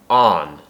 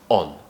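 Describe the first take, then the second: First: The vowel is longer and less rounded. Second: The vowel is short and round. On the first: "an American makes it longer and makes more of an R sound" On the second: "make the sound short and snappy and quick"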